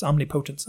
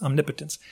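First: "omnipotence" said om-ni-POE-tence; stress on PO. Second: "omnipotence" said om-NIP-uh-tence; stress on NIP. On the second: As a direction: hit NIP and shorten the PO in "omnipotence". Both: Shown as a demonstration. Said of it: "where you put the emphasis".

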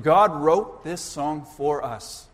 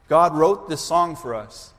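First: "God" weighted, each word slow and deliberate; slow emphatic stress. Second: Said in the usual way. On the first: Shown as a demonstration. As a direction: lean on "God", let the line land slowly. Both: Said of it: "Think about it".

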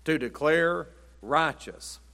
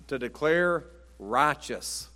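No difference in how they are said.

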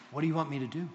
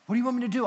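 First: Said in the usual way. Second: High, excited question; eager. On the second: Retold or imitated. Paul asks Jesus for his orders, eager. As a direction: ask as if raring to start.

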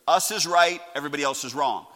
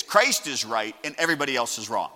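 First: "us" hit louder at the start; stress on "us". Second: "Christ" given the main emphasis; stress on "Christ". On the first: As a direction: lean hard on "us", then drop on the rest. Contrasts us with Christ. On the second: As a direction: punch "Christ" as the corrected word. Corrects us to Christ. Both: Shown as a demonstration.

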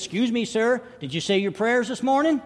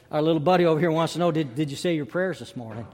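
First: Put-on high-pitched little boy's question; insistent boy. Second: Said in the usual way. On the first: Boy asks seatmate about prayers, insistent and high.

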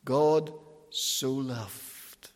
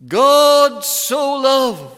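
First: God so loved, slow, softer and lower; God so loved murmured slowly, low and soft; hushed wonder. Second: God so loved, slow and louder, every word stretched; preacher booming God so loved slowly; drawn-out proclamation. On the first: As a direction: breathe God so loved in quiet awe. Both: Shown as a demonstration. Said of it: "Underline that wee word".

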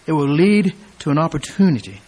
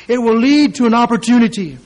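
First: Said in the usual way. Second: "It will lead to an opportunity" higher and louder; emphatic preaching. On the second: Shown as a demonstration. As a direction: press "lead" hard. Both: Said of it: "repeated phrase".

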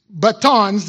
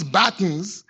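First: "batons" stressed on the second syllable, ba-TONS; alternative pronunciation. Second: "batons" stressed on the first syllable, BAT-ns; alternative pronunciation. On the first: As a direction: say "batons" as buh-TONZ, final vowel full. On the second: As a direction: say "batons" as BAT-unz, ending reduced. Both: Shown as a demonstration. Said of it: "So either baton or baton".

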